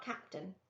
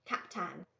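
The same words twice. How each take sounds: First: Captain said the usual way, CAP-tin; wrong pronunciation. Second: Captain with a drawn-out nasal final "tan"; right pronunciation. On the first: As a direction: say Captain plainly, short final syllable. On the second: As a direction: say Captain as Cap-taan, lengthening the end. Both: Shown as a demonstration. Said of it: "But not Captain".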